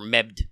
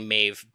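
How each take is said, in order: First: The name is said with D and B sounds. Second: The name is said with a V sound. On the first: The name is read off the page as spelled. The speaker calls it wrong. "because we're reading it off a page, like med or mebd" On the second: The name is said the older Celtic way. The speaker calls it right. "remember to say Maeve"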